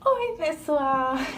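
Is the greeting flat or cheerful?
cheerful. It is said in a more cheerful tone.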